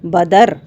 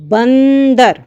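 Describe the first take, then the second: First: It is said without a nasal after the first vowel. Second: It is said with a nasal after the first vowel.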